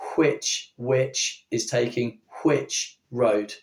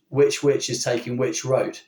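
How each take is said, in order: First: Which starts with a breathy hw, unlike witch. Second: Which and witch both start with plain w. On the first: This is how most people in England spoke decades ago. "the majority of people in England would have said" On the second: This is how most English people speak today. "do not make a distinction between this"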